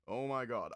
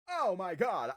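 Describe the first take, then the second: First: It is said in a tough, butch-sounding voice. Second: It is said in a different, less butch voice. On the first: The speaker calls it wrong. "the Butch voice isn't working" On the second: The speaker calls it right. "that's his new voice"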